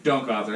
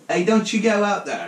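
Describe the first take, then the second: First: Louder mock-motherly warning; a lightly voiced Italian mama calling out; half-hearted mother's yell, not fully screamed; toned-down Italian mother. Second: High, loud mock yell, half laughing; hammed-up motherly shriek, close to cracking up; screaming Italian mother. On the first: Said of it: "classic Italian mother was like". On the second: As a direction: holler like a classic Italian mama. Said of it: "scream in classic Italian mother".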